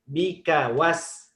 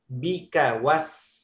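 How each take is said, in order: No difference in how they are said.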